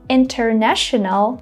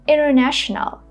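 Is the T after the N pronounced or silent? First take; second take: pronounced; silent. First: The T after the N is pronounced. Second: The T after the N is silent. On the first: "instead of saying" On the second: "I'm just saying"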